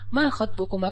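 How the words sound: It is said in a soft, gentle tone.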